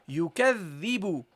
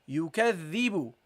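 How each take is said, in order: Both takes have the same delivery.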